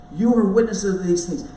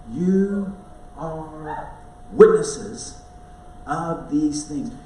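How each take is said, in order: First: "You are witnesses of these things" said louder in one driving line; forceful repeat. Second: You / are / witnesses, each word set apart with pauses, slow; emphatic slow delivery. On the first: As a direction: punch "You" and drive straight through. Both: Shown as a demonstration. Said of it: "I don't want you to miss this".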